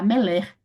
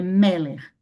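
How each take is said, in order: First: The stress is on the second syllable. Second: The stress is on the first syllable. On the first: The speaker calls it wrong. "você não vai falar meler" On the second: The speaker calls it right. "Dê um ênfase aqui no primeiro"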